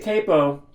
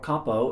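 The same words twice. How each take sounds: First: It is pronounced the American way. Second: It is pronounced the European way.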